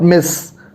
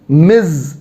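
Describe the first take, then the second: First: The word ends with a hissing s sound. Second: The word ends with a buzzing z sound. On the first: The speaker calls it wrong. "but they pronounce it as Miss. And that's where you make a make a mistake" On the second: The speaker calls it right. "you means Miz, the Z sound"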